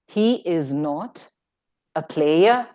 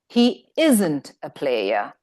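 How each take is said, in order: First: Is and not are said as separate words. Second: Is and not are joined into one word.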